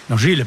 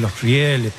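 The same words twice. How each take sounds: First: "riles" sin diptongo, "ri-les"; corrígete y di "riles" con una sola i; palabra corregida. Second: "rieles" con diptongo, "rie-les"; palabra mal dicha. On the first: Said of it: "perdón". ("riles" pronunciado sin la e del diptongo) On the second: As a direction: di "rieles" marcando la e tras la i. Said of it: "Los riles, perdón". ("rieles" pronunciado con "ie") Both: Real, not acted.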